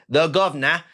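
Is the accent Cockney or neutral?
Cockney. It is said in a Cockney accent.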